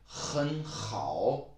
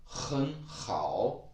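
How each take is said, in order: The two takes are said the same way.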